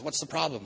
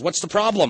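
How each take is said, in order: First: Restrained priest's question, slightly raised pitch. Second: High, loud call down into a hole; hammed-up businessman's question, pitched high and loud. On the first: Retold or imitated. Priest comes over to the man in the hole, restrained lightly voiced question. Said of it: "the priest comes over and he says". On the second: Businessman calls down to the alcoholic in a hole, high loud mock call. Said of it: "the businessman walks over to the edge".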